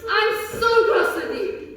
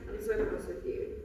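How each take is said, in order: First: It is said angrily, with strong emotion. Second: It is said flatly, without emotion.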